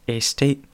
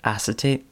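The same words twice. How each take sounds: First: "acetate" tried as AY-state, higher and questioning; second guess at "acetate" with a long first a; unsure pronunciation. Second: "acetate" tried with a short a, questioning; unsure pronunciation. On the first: Comedian guessing at an ad word, unsure "AY-state". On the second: Comedian guessing at an ad word, unsure "ASS-uh-tate". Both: Retold or imitated. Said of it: "didn't know how to pronounce".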